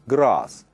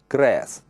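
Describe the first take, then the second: First: The vowel is long, like in 'car'. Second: The vowel is short, like in 'hat'. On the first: This is how southern English speakers say it. "In the south, this word is pronounced with the long sound R" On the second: This is how northern English speakers say it. "but in the north, like in the word hat"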